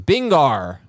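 The word ends with an 'r'-like sound.

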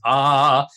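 It is a low, thick chest voice.

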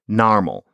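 The first vowel is an open 'ar' sound.

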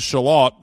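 It is said the English or Australian way.

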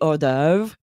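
The word is pronounced with French sounds. This is the original pronunciation in its source language. "I know that this should be hors d'oeuvres"

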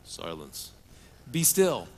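It is said in a deep commercial-announcer voice.

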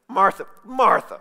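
It is said in an impatient, irritated tone.

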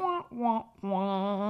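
It sounds sad and deflated. The episode ending is a letdown. The speaker calls it wrong. "No, don't say it that way. This was a great episode"

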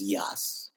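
The name is said with a Yiddish pronunciation. This is how the speaker's community said the name. "but we knew it as"

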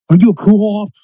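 It is said in a Boston accent.

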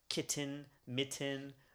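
It is said LA-style, with clearly pronounced T's.

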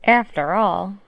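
It is said in a silly put-on accent. The speaker calls it right.

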